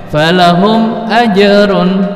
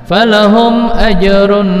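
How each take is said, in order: No difference in how they are said.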